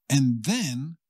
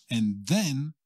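No difference in how they are said.

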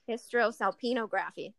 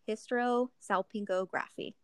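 First: No g sound follows the 'salpin' part. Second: A g sound follows the 'salpin' part. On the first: The speaker calls it right. "There we go" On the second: The speaker calls it wrong. "You added an extra G"

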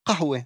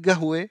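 First: The word begins with a deep throaty q. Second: The word begins with a hard g. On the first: The speaker is Druze. "הוגים את הקוף גרונית" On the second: The speaker is Bedouin. "הבדואי יגיד גהווה"

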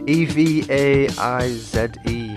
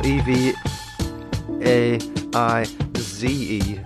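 First: It is said in a British accent. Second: It is said in an American accent.

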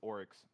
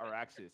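First: The name is said with two syllables. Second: The name is said with three syllables. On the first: The speaker calls it right. "It's Oryx" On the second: The speaker calls it wrong. "It's not Araxis"

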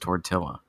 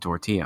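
First: The double L is said like an L sound. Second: The double L is said like a Y sound. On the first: It is the word as said in English. "I'm speaking English, therefore it's tortilla" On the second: It is the word as said in Spanish. "If I was speaking Spanish, it would be tortilla"

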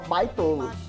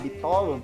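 First: The first syllable has an 'eye' diphthong. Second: The first syllable has a plain 'ee' vowel. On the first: This is how a foreign engineer said the word. "ele falava baitola" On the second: This is the normal word for the rail gauge. "Em vez de falar bitola"

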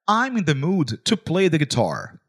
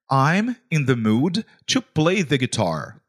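First: It is said at normal speed. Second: It is said more slowly.

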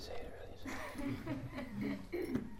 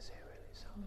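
First: It is said loudly. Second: It is said very softly.

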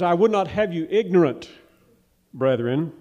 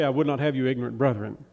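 First: There is a pause before brethren. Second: It runs straight on into brethren without a pause.

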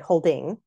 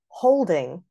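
First: The stress is on the second syllable. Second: The stress is on the first syllable. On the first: The speaker calls it wrong. "because we don't say holding" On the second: The speaker calls it right. "here is another trochee right in the middle of the line"

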